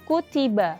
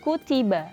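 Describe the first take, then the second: The two takes are said the same way.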